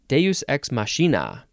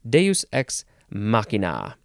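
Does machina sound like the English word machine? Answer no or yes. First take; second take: yes; no. First: Machina is said like the English word machine. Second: Machina is not said like the word machine. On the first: The speaker calls it wrong. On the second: The speaker calls it right.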